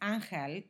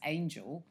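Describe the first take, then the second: First: The name has a Spanish pronunciation. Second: The name has an English pronunciation. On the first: "if you're called in Spain, it's Angel" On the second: "if you anglicise that, it's Angel"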